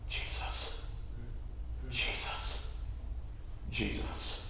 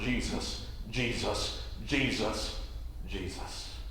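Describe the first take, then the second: First: It is said quietly. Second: It is said loudly.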